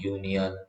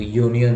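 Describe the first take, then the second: First: Said in the usual way. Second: यूनियन opening with a "yo" sound; pronunciation demo. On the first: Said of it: "ये sound दे देता है यू की". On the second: Shown as a demonstration. Teacher shows how union sounds, यूनियन said "yo-nian". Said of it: "तो यूनियन होता है".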